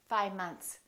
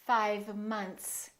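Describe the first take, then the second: First: The V sound almost disappears. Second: The V sound is clearly pronounced.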